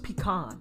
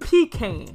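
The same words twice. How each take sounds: First: It is said with the non-Southern pronunciation. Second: It is said with the Southern pronunciation. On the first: The speaker calls it right. "when it's really pronounced pecan" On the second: The speaker calls it wrong. "the South always say pecan"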